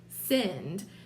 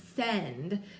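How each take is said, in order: First: It is said quickly, with a Kentucky accent. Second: It is stretched out, with a clear short e.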